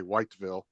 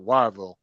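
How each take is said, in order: First: The T sound in the name is pronounced. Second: The T sound in the name is dropped. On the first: This is how a newcomer said it. "I used to say Whiteville" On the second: This is how the locals say it. "that's how they pronounced it"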